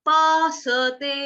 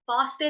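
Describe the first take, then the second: First: The s is followed by a full vowel. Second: The s joins the t with no vowel. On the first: The speaker calls it right. "सते स पूरा गाना है" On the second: The speaker calls it wrong. "पास्ते नहीं"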